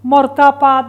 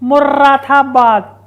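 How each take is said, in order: First: The name is said as 'murdabad', without the middle vowel. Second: The name is said as 'murradabad', with the middle vowel. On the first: The speaker calls it wrong. "Not मुर्दाबाद" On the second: The speaker calls it right. "It's मुर्रादाबाद"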